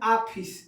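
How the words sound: It is said the eastern Uttar Pradesh way. "पूर्वी उत्तर प्रदेश में ... हम लोग बोलते हैं आफिस"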